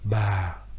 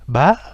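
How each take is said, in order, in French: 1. La syllabe se dit avec un accent grave. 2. La syllabe se dit avec un accent aigu. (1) "avec un accent grave" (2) "avec un accent aigu"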